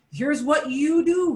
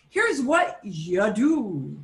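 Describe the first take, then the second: First: "do" lifted higher and stronger; quicker phrase, landing hard on "do"; stress on DO. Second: "here's what you do" slowly stretched; drawn-out phrasing. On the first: Teacher restating before switching to "one does", stress on "do". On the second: Teacher introducing library rules to the student, drawn out. Rephrasing generic you as one. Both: Shown as a demonstration.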